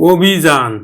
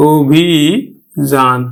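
First: Said in the usual way. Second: অভিযান very slowly as ও-ভি... যান; slow, split অভিযান with an initial "o"; syllable-by-syllable pronunciation. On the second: Shown as a demonstration. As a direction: stretch the ভি of অভিযান, pause before যান. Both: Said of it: "আমরা উচ্চারণ করব কিন্তু".

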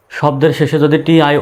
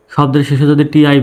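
Both takes have the same delivery.

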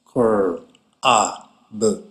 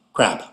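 First: "cur, a, b" as separate, lowered sounds; sounded out. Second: Said in the usual way. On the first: Shown as a demonstration. Teacher asking students to listen, "cur, a, b" sounded apart. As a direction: break "cur, a, b" apart with small pauses. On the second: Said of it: "practice some words".

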